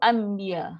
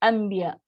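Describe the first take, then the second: No difference in how they are said.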